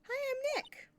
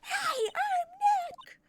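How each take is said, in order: First: It is said at a normal, quieter volume. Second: It is said loudly, almost shouted.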